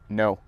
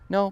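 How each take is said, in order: First: It is said deeper and more firmly. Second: It is said lightly and softly.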